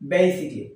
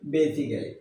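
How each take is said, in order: First: The middle syllable is dropped, sounding 'sic-ly'. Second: The middle has a full 'cal' syllable. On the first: The speaker calls it right. "কিন্তু এর উচ্চারণ হবে বেসিকলি" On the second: The speaker calls it wrong. "আমরা এটাকে বলি বেসিক্যালি"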